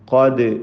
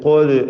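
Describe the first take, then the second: First: The vowel is a clear open a. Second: The vowel sounds rounded, like o. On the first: The speaker calls it right. "ഖാദ് ഖാദ് എന്ന് വ്യക്തമായി തന്നെ ഫത്ഹ് ഉച്ചരിക്കേണ്ടതാണ്" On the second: The speaker calls it wrong. "ളമ്മാണോ ഖോദ് ഖോദ് എന്നൊക്കെ പറയാം"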